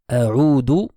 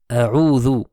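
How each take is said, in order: First: The middle consonant is a plain d sound. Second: The middle consonant is a voiced th sound. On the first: It means I return. The speaker calls it wrong. "avec le Dal au lieu du Zal. A'udhu sera faux" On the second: It means I seek refuge. The speaker calls it right. "A'udhu avec le Zal veut dire je cherche refuge"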